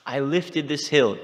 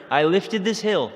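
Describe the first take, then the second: First: "hill" stressed and drawn out slowly, higher; slow boast landing on "hill"; boastful stress. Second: "this" hit hard, higher and louder, slow; slow boast leaning on "this"; boastful stress. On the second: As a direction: stress on "this" in "I lifted this hill". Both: Retold or imitated. Krishna boasting in the story.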